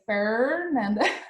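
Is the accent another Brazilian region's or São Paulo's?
São Paulo. It is said in a São Paulo accent. "from São Paulo, I say Fernanda"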